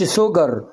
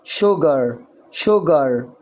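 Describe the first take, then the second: First: سجر said with a plain s, sugar with s; s in sugar, wrong way. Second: شجر said with sh, shugar; sh in sugar, correct way. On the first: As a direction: give سجر a hard s, the mistake to avoid. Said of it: "ما أقولش". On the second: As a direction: say شجر with sh at the start. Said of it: "ما أقولش سجر". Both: Shown as a demonstration.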